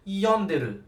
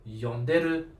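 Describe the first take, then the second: First: "Yonderu" with YON high, falling away after it; first-syllable accent. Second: "yonderu" starting low, lifting to a level end; low-start accent. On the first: Teacher showing a student the difference, high-start accent. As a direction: hit a high YON in "Yonderu", then drop. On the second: Teacher showing a student the difference, low-start accent. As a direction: start "yonderu" low and step up after YON. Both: Shown as a demonstration. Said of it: "I just changed the stress".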